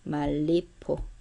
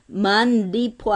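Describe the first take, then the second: First: The consonant at the first join is an l sound. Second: The consonant at the first join is an n sound. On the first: The speaker calls it right. "말, 리을" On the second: The speaker calls it wrong. "아니죠?"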